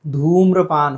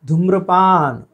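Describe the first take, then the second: First: धूम्रपान with stretched धू; long oo. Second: धूम्रपान said as "dhumrapaan"; short first vowel in धूम्रपान; wrong short u. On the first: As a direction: say "dhoom-rapaan" for धूम्रपान. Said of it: "होना चाहिए". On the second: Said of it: "धूम्रपान होना चाहिए". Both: Shown as a demonstration.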